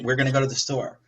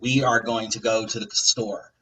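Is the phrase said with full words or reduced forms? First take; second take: reduced; full. First: The words are contracted into we're and gonna. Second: Every word is said fully and separately. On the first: The speaker calls it right. "people just say" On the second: The speaker calls it wrong. "people don't talk like that"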